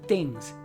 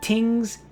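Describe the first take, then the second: First: The word begins halfway between t and th. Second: The word begins with a full t sound. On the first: It sounds closer to standard English. "you're not th, and you're not t. So you're halfway" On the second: It sounds very island-like. "depending on how thick you want your Hawaii accent to be, you might say tick, like tings"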